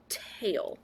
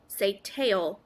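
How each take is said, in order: First: Whispered word. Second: Said in the usual way. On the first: Shown as a demonstration. Teacher whispering the word for children to repeat. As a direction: whisper "tail" softly, stop the voice.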